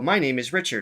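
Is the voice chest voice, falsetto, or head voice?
chest voice. It is spoken in a low, resonant chest voice. "chest voice. He, if you just speak, you can feel a vibration in your chest"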